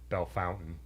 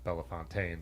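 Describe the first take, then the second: First: It is said like the English 'bell fountain'. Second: It is said with a French pronunciation. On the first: The speaker calls it right. "I don't think it has a French pronunciation in Ohio" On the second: The speaker calls it wrong. "It's not Bellefontaine like we were saying"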